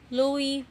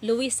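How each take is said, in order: First: The name ends without any S sound. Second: The name ends with an audible S sound. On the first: The speaker calls it right. "tatanggalin niyo yung S" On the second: The speaker calls it wrong. "hindi po Louis, ha?"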